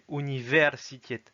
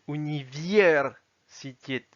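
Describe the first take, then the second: First: The vowel is said as a plain 'e'. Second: The vowel is said with a 'ye' glide. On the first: The speaker calls it right. "c'est universitet" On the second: The speaker calls it wrong. "le E ne se prononce pas Y mais se prononce E. Parce que sinon ça donnerait universitet"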